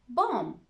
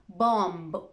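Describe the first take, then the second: First: The word ends in an m sound, no b. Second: The word ends with an audible b sound. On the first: The speaker calls it right. "We usually don't pronounce the B" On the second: The speaker calls it wrong. "It's not bomb"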